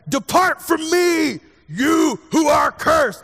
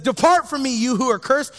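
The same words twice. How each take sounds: First: Slow, high, loud booming pronouncement; drawn-out dramatic shout of condemnation. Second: Said in the usual way. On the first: Acted. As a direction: thunder it down like a wrathful judge. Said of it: "I don't know why he's talking like that now". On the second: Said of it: "but he says".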